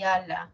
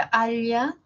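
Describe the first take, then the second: First: Second "ala" with a simple l, no y glide; "ala" with a clean alveolar l. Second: First "ala" said as "alya", with a palatal lateral; "ala" with the tongue on the palate, like "alya". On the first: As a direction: say "ala" with tongue tip behind the teeth. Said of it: "la otra es alveolar". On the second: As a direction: sound out "ala" with l gliding into y. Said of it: "palatal y la otra es alveolar". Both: Shown as a demonstration.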